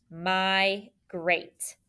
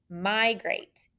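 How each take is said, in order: First: "migrate" drawn out in two beats, my, grate; syllable by syllable. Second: Said in the usual way. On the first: Shown as a demonstration. Teacher dictates for students to write, "migrate" split my-grate. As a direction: pause between the syllables of "migrate".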